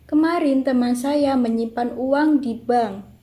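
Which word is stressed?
di bank. The stress falls on di bank. "keenam mendapat tekanan pada di bank"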